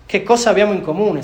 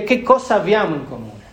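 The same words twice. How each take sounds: First: Quick, defiant demon's retort; defiant rebellion. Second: Said in the usual way. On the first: Retold or imitated. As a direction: throw it back in rebellion, not submissive. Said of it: "è un parlare di ribellione". ("Che cosa abbiamo in comune?" detto in fretta, con ribellione) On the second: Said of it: "possiamo dire".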